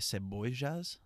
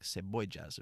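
First: The double L sounds like zh, Argentine style. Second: The double L sounds like j, Colombian style.

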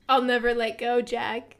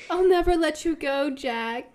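First: It is said slowly with little energy. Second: It is said with more energy and life. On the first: The speaker calls it wrong. "took about as long as it took the Titanic to sink" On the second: The speaker calls it right. "say it with a bit more like... energy"

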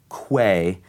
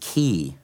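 First: The word is pronounced like 'kway'. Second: The word is pronounced like 'key'. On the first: The speaker calls it wrong. "So he said Quay, and I thought it was right" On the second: The speaker calls it right. "but it's key"

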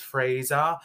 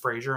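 First: The name is said in a British accent. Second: The name is said in an American accent. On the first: This is how the person says his own name. "He has a British accent, so he says Fraser" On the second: This is how the speaker will say the name. "but it's Fraser, I'm going to say"

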